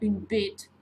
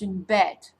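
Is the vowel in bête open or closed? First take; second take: closed; open. First: The vowel is a closed e sound. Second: The vowel is an open eh sound. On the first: The speaker calls it wrong. "So it's not une bête" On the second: The speaker calls it right. "it's une bête"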